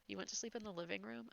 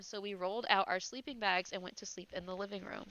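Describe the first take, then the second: First: Teasing question, rising at the end on "you went to sleep in the living room?"; mocking repeat. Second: "out" punched, falling tune on "so we rolled out our sleeping bags"; odd stress on out. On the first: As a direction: echo it back with a quizzical rise. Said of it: "I said it that way". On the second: Real, not acted. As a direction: lean oddly on "out" and let the line fall. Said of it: "don't know why I said it that way".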